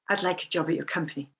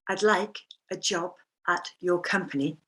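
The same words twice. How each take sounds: First: The words flow together with sounds connected. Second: The words are said separately without joining.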